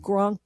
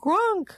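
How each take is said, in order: First: It is said plainly, without much feeling. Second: It is said with more feeling and expression.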